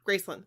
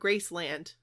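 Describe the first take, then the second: First: The last syllable is reduced to 'lund'. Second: The last syllable has a full 'land' vowel. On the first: This is how locals in Memphis say it. "It's like one word" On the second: This is how the speaker's own family always said it. "We've always said Graceland. ... Like Disneyland"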